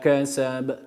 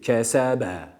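First: The word ends on a short bounced b. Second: An extra vowel is added after the b. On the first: The speaker calls it right. "Yani ve ma kasab" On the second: The speaker calls it wrong. "Şöyle değil"

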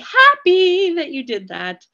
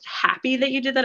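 First: It is said with lively, excited inflection. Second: It is said in a plain, flat tone. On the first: The speaker calls it right. "I'm going to change the inflection of my voice" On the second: The speaker calls it wrong. "not just happy that you did that"

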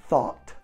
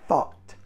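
The two takes are said the same way.

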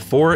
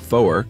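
First: The word is said with one syllable. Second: The word is said with two syllables.

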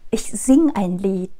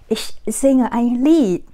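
First: The verb drops its final e sound. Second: The verb keeps its final e sound. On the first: The speaker calls it right. "mà chúng ta sẽ lược như sau" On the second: The speaker calls it wrong. "Thì chúng ta sẽ không nói rõ là ich singe"

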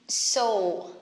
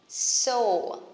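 Both takes have the same delivery.

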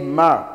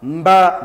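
First: The b sound is silent. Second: The b sound is pronounced. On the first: The speaker calls it right. "We say mer" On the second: The speaker calls it wrong.

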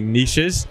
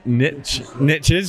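First: The word is said in a British pronunciation. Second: The word is said in an American pronunciation. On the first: "in British English, we would say niches" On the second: "but in American English, it's niches"

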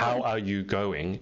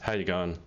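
First: Every word is said fully and separately. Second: The words run together with little mouth movement.

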